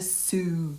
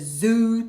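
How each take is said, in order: First: The word begins with a hissing s sound. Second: The word begins with a buzzing z sound. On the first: "not the zoo, but they say like that" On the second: "I have it as Z"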